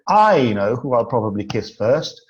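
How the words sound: The stress is on the word I. The speaker knows, but the listener does not. "If we put the emphasis on the first word"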